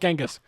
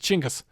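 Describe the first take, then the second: First: The name is said in its anglicized form. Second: The name is said in its native form. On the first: The speaker calls it wrong. "Genghis is an anglicized version" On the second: The speaker calls it right. "That's his actual pronunciation of his name"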